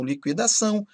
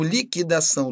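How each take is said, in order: First: LIQUIDAÇÃO with sounded u, "likwidação"; com ditongo. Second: LIQUIDAÇÃO with silent u, "likidação"; plain k in liquidação; sem ditongo. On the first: (liquidação com o u pronunciado) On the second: (liquidação com u mudo) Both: Shown as a demonstration. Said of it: "Pronúncia facultativa".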